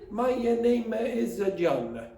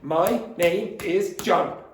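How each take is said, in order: First: An extra vowel sound follows each word. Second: Each word ends cleanly without extra sounds. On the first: The speaker calls it wrong. "if you do that, you'll sound Italian" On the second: The speaker calls it right.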